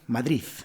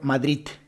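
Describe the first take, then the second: First: The word ends with a th-like Z sound. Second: The word ends with a T sound. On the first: "En vez de D, utilizan la Z" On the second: "en vez de utilizar la D, utilizar la T"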